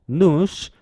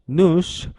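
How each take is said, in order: Both takes have the same delivery.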